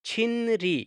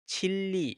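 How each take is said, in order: First: It is said with an n before the r. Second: It is said with a double l sound. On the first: This is how the word is written. "अब ये है छिनरी" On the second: This is how the word is actually pronounced. "तो इसको पढ़ेंगे छिल्ली"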